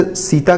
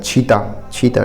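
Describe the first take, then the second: First: Said in the usual way. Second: "छीता" with aspirated chh replacing s; Chhattisgarhi pronunciation. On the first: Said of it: "सीता के स्थान पर क्या होता है". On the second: Shown as a demonstration. Teacher shows students how Sita changes, dialect "छीता" with chh for s. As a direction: say "छीता", opening on a chh sound. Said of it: "स के स्थान पर छ का प्रयोग".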